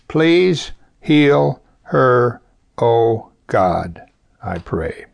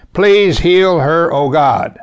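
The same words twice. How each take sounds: First: Slow prayer. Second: Loud, slow, higher cry of Please heal her; fervent prayer. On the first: Preacher models the short prayer for listeners, very slow and sinking. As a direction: linger on each word, let the end sink away. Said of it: "That's the prayer for today". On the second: Preacher shows the congregation a simple prayer, loud fervent plea. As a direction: call out the short prayer with full force. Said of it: "Can you say five words". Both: Shown as a demonstration.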